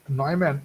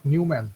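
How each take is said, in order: First: "Neumann" with an oy sound in the first syllable; German-style Neumann. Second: "Newman" with a you sound in the first syllable; anglicised Newman. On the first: Lecturer teaching students the name, Neumann pronounced "NOY-man". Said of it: "this pronunciation is Neumann". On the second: Lecturer showing students the mistaken reading, Newman pronounced "NYOO-man". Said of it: "it is not Newman". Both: Shown as a demonstration.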